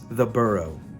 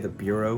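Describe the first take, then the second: First: The name sounds like the word burrow. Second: The name sounds like the word bureau. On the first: The speaker calls it right. "but it's The Burrow" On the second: The speaker calls it wrong. "I used to always say the Bureau for some reason"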